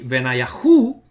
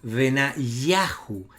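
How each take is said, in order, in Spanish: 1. El acento está en la sílaba hu. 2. El acento está en la sílaba ya. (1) "no se dice aquí Benayahu, no hay acento en la sílaba hu" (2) "la sílaba acentuada justamente es ya"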